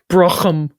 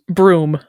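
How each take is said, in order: First: A strong throaty consonant is heard in the middle. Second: The word sounds like 'broom', with no middle consonant. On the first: This is an older way to say it. "there's an older pronunciation that's like Brochum, ... Really, really hit the G H" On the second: This is the most common way to say it. "Can be pronounced broom"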